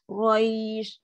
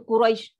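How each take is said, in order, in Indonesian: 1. Suku kata terakhir dipanjangkan dengan lembut dan nadanya turun. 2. Suku kata terakhir dipotong pendek dan cepat. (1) "Suara turun. ... Nak dapatkan dia lembut" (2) "salah lah. ... kenapa baca Quraisy cepat?"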